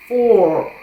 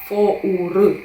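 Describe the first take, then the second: First: It is said as a single syllable. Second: It is read letter by letter in two syllables. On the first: The speaker calls it right. "Вимовляється це як просто for" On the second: The speaker calls it wrong. "Фоур, так би мовити"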